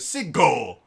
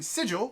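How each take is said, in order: First: The middle consonant is a hard g sound. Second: The middle consonant is a soft j sound. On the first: The speaker calls it wrong. "it drops everything into the back of the throat" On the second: The speaker calls it right. "which just kind of rolls off the tongue"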